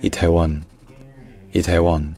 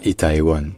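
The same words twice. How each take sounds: First: Itaewon said "i-tè-won"; three-syllable Korean pronunciation. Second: Itaewon said "i-ta-é-won"; wrong four-syllable Itaewon; mispronounced in four syllables. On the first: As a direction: merge the ae of Itaewon into one open e. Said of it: "c'est juste le son E". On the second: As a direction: split the a and e of Itaewon. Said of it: "Il ne se dit pas en quatre syllabes". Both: Shown as a demonstration.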